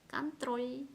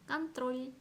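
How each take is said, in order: The two takes are said the same way.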